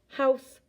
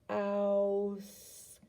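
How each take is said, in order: First: It is said at normal speed. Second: It is said slowly, stretched out.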